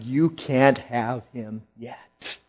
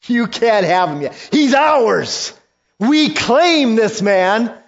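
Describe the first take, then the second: First: Said in the usual way. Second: High, loud, possessive shout; loud demon claim. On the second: Acted. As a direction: demons insisting, raised and loud. Demons arguing, rising.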